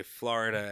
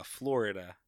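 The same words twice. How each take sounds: First: "Florida" said the New Yorker's way; your own New York "Florida". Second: "Florida" said as the locals say it; corrected, non-New York "Florida". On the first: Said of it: "I say Florida". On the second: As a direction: carefully give "Florida" the local pronunciation. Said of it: "and it's, uh". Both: Shown as a demonstration.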